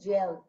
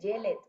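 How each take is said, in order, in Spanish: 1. El final es solo un sonido de D. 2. El final es más que un sonido de D. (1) "solamente vamos a pronunciar la letra D" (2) "No vamos a decir"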